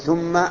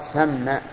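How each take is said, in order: First: The first vowel is a rounded 'u' sound. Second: The first vowel is an open 'a' sound. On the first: It works as a conjunction meaning then. The speaker calls it wrong. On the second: It is an adverb meaning there, a distant place. The speaker calls it right.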